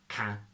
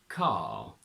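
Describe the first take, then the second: First: The word ends with no R sound. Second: The word is said with an R sound. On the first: The speaker calls it wrong. "we don't say" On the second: The speaker calls it right. "We say"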